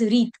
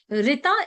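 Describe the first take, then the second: First: The word ends on a consonant sound. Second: The word ends with an added vowel sound. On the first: This is the original Sanskrit form. "Sanskrit pronunciation, we call it as Reet" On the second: This is the anglicized form. "it's an uh, English word, we add a"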